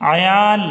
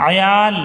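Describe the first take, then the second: No difference in how they are said.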